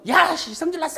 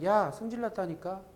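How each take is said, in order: First: It is shouted loudly and angrily. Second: It is said quietly with a cold voice.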